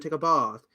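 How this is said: It has a British accent with an 'aw' vowel. "with British accents, ... it's all "aw,""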